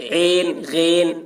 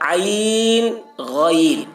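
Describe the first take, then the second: First: The vowel is a single 'ay' sound. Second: The vowel is an 'aa' gliding into 'ee'. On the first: Urdu does not read these letters this way. The speaker calls it wrong. "अगर मजहूल पढ़ते तो क्या पढ़ते, ऐन गैन ऐसे पढ़ते" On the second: This is how Urdu reads these letters. The speaker calls it right. "मारूफ पढ़ा गया है"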